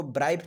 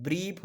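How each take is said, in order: First: ब्राइफ with the vowel said as "ai", like bribe; wrong pronunciation. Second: ब्रीफ with a long "ee" vowel; correct pronunciation. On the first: Teacher shows students the wrong reading, ब्राइफ with "ai". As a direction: say ब्राइफ rhyming with knife, the mistaken way. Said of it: "इसको ब्राइफ नहीं बोलते हैं". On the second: Teacher gives students the right reading, ब्रीफ with long "ee". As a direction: say ब्रीफ with a long clear "ee", like beef. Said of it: "ब्रीफ बोलते हैं". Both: Shown as a demonstration.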